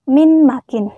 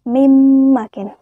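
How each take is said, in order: First: The n is pronounced clearly before the m. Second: The n merges into a nasalized doubled m. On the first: The speaker calls it wrong. "Jadi tidak dibaca min makin" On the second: The speaker calls it right. "Memasukkan huruf pertama ke dalam huruf kedua dengan berdengung"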